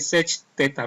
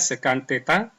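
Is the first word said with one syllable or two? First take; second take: one; two. First: The first word is a single short syllable. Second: The first word has two syllables. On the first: The speaker calls it wrong. "Jangan dibaca yang tertulis, misalkan ini sec theta, bukan" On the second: The speaker calls it right. "Dibacanya sekan theta"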